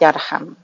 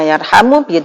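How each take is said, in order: First: The word ends on m, no final vowel. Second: The word ends with a final u vowel. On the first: "bisa dibaca yarham" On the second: "Bisa dibaca yarhamu"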